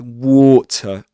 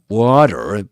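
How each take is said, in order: First: It ends in a schwa with no R. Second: The final R sound is pronounced. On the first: This is the Southern British way of saying it. The speaker calls it right. "but water" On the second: This is the American way of saying it. The speaker calls it wrong. "you don't say water"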